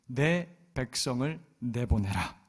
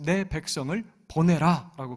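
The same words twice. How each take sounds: First: Slow, weighty command to Pharaoh; bold proclamation. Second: Louder, slow bold cry; crying out boldly. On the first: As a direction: proclaim God's demand slowly. (느리고 무게 있는 선포) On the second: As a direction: call out the demand boldly. (담대하게 외치는 소리) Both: Retold or imitated. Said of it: "그렇게 외치고 있어요".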